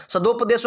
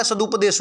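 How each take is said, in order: First: सदोपदेश with a long "o" after द; wrong vowel variant. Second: सदुपदेश with a short "u" after द; correct short u. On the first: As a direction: say सदोपदेश as sa-do-pa-desh. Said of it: "सदोपदेश होगा या सदुपदेश होगा". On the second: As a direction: say सदुपदेश as sa-du-pa-desh. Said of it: "सदुपदेश होगा". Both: Shown as a demonstration.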